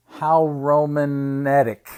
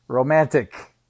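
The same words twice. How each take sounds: First: "romantic" stretched slowly as "Roman-etic"; punning pronunciation. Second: Said in the usual way. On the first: Acted. Uncle punning on Roman numerals, "romantic" said as "Roman-etic". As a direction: draw out "romantic" so it starts with "Roman".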